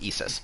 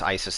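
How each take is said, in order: First: The name is said with Greek vowels. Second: The name is said with English vowels. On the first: The speaker calls it right. "but pronounced Isis" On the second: The speaker calls it wrong. "not pronounced Isis as the English pronunciation"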